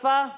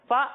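First: The vowel is short and smooth. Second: The vowel is cut off with a jolt. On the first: The speaker calls it right. "بغیر کھینچے بغیر جھٹکا دیے اس طرح پڑھیں گے" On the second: The speaker calls it wrong. "جھٹکا دے کر فا بھی نہیں پڑھیں گے"

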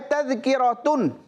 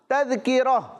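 First: The word ends with a t and n sound. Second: The word ends with a soft h sound. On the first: The word is read without stopping. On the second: The reciter stops on this word.

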